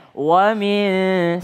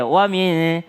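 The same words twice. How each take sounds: First: WA MIN unhurried, both sounds given full length; relaxed. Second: WA MIN with the hum cut short; rushed. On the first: Teacher modelling wa min, relaxed and drawn out. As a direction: stretch WA MIN at an easy pace. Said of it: "santai aja". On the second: Teacher showing a too-quick wa min, clipped short. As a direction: hurry through WA MIN. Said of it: "dipercepat ya". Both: Shown as a demonstration.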